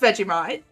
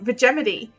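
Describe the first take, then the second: First: The word ends in 'mite', rhyming with bite. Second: The word ends in 'mity', like Yosemite. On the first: This is the standard pronunciation. "It is pronounced Vegemite" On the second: This is a joke pronunciation modeled on Yosemite. "so now we say Vegemity"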